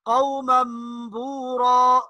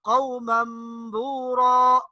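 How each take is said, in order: The two takes are said the same way.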